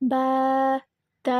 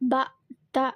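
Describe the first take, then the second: First: The vowels are drawn out long. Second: The vowels are short. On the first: A lengthening letter follows the vowel mark. "நம்ம நீட்டுறோம்" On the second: Only a vowel mark follows the letter. "குறிலா தானே ஓதுறோம்"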